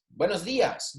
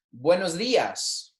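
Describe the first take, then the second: First: Said in the usual way. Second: Buenos dias said slowly for the class to repeat; drawn out, clear Spanish model; slow model phrase. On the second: Shown as a demonstration. Teacher to class, slow buenos dias to repeat. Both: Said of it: "saying these with me".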